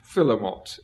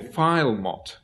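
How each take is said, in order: First: It is said with a middle vowel sound. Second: It is said without a middle vowel sound. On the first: This is the accepted pronunciation. The speaker calls it right. "I'm told it's philomot" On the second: This is how it was said in childhood. The speaker calls it wrong. "as I used to call it when I was a child"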